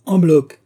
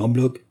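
First: Loud, high outraged echo; indignant exclamation. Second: Said in the usual way. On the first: A narrator's reading. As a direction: throw the words back, higher and louder. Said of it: "s'écria l'autre". (exclamation indignée)

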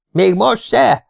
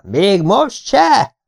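First: High, loud mocking shout. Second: Very slow, stretched high yell; drawn-out shout. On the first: Schoolboy shouting at a sleepy classmate, high loud shout. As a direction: bellow the question right into his face. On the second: Acted. Schoolboy yelling at a drugged classmate, slow stretched shout. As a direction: drag every syllable out at full voice. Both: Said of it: "ordítottam".

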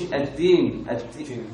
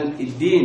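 First: الدين with a whispery d close to t; dal turned taa. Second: الدين with a firm, fully voiced d; voiced dal. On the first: Teacher mimicking the mistake, dal turned taa. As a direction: let breath leak through the d of الدين. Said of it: "بقت أقرب من التاء". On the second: Teacher giving students the example, voiced dal. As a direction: stop the sound cleanly on the d of الدين. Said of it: "بالدال، زي ما قلنا امبارح". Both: Shown as a demonstration.

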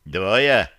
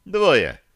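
First: Said in the usual way. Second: Loud firm «Двое» dropping at end; firm confirming. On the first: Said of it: "поинтересовался кто-то". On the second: A narrator's reading. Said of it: "подтвердил Барри".

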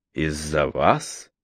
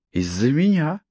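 First: Low, slow, doubtful question; slow disbelief. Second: Меня stressed and rising higher. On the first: Man asks in disbelief. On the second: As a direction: lean hard on меня. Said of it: "Сделайте на этом ударение". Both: A narrator's reading.

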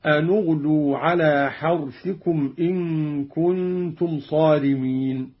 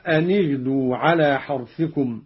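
First: "أن اغدوا" recited slowly as "anu-ghdu"; slow recitation, "anu" in "أن"; damma on the nun. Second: Said in the usual way. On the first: Shown as a demonstration. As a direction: link "أن اغدوا" with a u after the n. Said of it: "بضم أولى الساكنين وهو النون".

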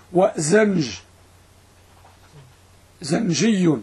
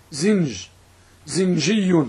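First: زنج and زنجي with a short "a", zanj, zanji; fatha on first consonant. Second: زنج and زنجي with a short "i", zinj, zinji; kasra on first consonant. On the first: Teacher showing the fatha option, زنج said as "zanj". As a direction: open the first vowel of زنج to "a". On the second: Teacher showing the kasra option, زنج said as "zinj". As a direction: narrow the first vowel of زنج to "i". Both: Shown as a demonstration. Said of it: "إما بفتح الظاء أو بكسرها".

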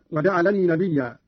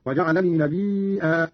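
First: Said in the usual way. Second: "نبيا" as nabii'aa, with a glottal stop; slow long madd before the catch in "نبيا"; hamza on ya. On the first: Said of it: "بهمز الياء". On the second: Shown as a demonstration. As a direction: stretch the i of "نبيا" long, then break with hamza. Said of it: "قرأ قالون بهمز الياء ويصير عنده مدا متصلا".

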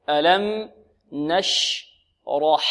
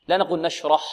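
First: Very slow ألم نشرح, heavy ra, light ha; slow model. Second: نشرح said wrong, with the ha dropped; wrong take. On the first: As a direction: stretch out ألم نشرح for the class. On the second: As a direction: show the faulty نشرح. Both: Shown as a demonstration.

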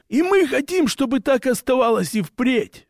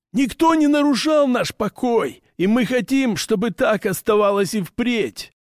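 First: "мы" pitched much higher with a rise; stress on МЫ. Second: High orc voice leaning on "хотим"; orc voice, stress on хотим. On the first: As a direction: orc repeats, punching "мы" high and rising. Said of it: "повторил орк". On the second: Orc's first statement. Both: Acted.

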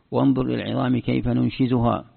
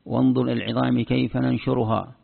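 First: "ننشزها" said nunshizuhaa, with z; letter substitution. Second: "ننشرها" said nanshuruhaa, with r; letter substitution. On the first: Teacher shows the z reading, "ننشزها" as nunshizuhaa. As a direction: recite with a z in "ننشزها". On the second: Teacher shows the r reading, "ننشرها" as nanshuruhaa. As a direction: recite with an r in "ننشرها". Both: Shown as a demonstration. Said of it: "نبدل حرف بحرف".

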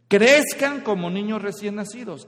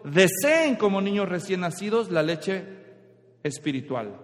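First: Crezcan said louder as the wrong reading; stress on crezcan. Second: Deseen leaned on, as the right reading; stress on deseen. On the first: Preacher contrasting Crezcan with Deseen, loud on Crezcan. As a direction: lean on the word Crezcan. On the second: Preacher correcting the verse, weight on Deseen. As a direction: hit the word Deseen. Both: Shown as a demonstration. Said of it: "Está diciendo".

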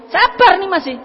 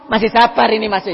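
First: Higher and louder on "Sabar"; emphatic. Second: Said in the usual way. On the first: Shown as a demonstration. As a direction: push "Sabar" up high and hard.

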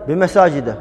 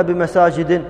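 First: بمساجد ending on a short a, bimasājida; teacher models بمساجد with the fatha ending; correct fatha ending. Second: بمساجد ending on a short i, bimasājidi; teacher shows the wrong kasra on بمساجد. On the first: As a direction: say بمساجد with a final fatha, no nunation. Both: Shown as a demonstration. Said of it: "ما قلنا بمساجد".

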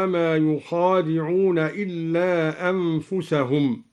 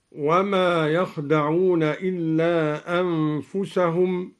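First: "يخادعون" said "yukhādi'ūn", with u on the ya and long a after kha; damma and added alif. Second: Said in the usual way. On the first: Shown as a demonstration. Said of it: "بضم الياء وفتح الخاء وألف بعدها". (ضم الياء ومد الخاء بألف وكسر الدال في "يخادعون")

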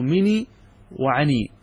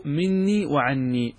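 First: "مني وعني" with one short n in each; lightened noon. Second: "مني وعني" with a doubled n in each word; full doubled forms. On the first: Teacher quoting the Arabs' poetic licence, "مني وعني" with single n. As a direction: undouble the n in both "مني" and "وعني". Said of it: "أنهم خففوا مني". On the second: Teacher naming the words before lightening, "مني وعني" with doubled n. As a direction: hold the n in both "مني" and "وعني". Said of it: "أنهم خففوا". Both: Shown as a demonstration.

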